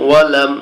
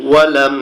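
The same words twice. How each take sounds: The two takes are said the same way.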